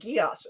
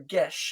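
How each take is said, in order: First: The word ends with an 'ass' sound. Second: The word ends with an 'esh' sound. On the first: This is the familiar anime pronunciation. "in whatever pronunciation you prefer" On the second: This is the Celtic pronunciation. "in whatever pronunciation you prefer"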